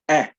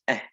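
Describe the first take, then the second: First: The vowel is full, clear and hard. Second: The vowel is soft, faint and breathy. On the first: "a hard eh sound" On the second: "a softer eh... almost faint"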